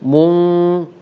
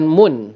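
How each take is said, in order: First: The syllable ends in a held nasal hum. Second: The syllable ends in a plain n sound. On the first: The speaker calls it right. "tetapi mung" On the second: The speaker calls it wrong. "bukan mun"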